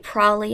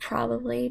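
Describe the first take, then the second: First: The word is shortened, with syllables dropped. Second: The word is said in full, every syllable. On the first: "I also like to say probably" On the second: "instead of probably"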